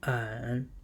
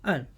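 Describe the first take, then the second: First: The pitch dips low and comes back up. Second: The pitch falls sharply from high to low.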